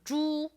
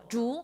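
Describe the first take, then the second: First: The pitch stays level and flat. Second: The pitch curves down and then up. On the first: It means pig. "猪 is flat" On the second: It means bamboo. "like a curve up"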